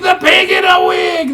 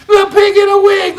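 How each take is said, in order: First: Very high, loud chant; chanted, repeat the jeer like lambs; high loud playground chant; chanted taunt again. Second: Very high, loud chant; chanted, chorus it like jeering lambs; high loud playground chant; chanted taunt. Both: A narrator's reading. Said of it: "they chorused".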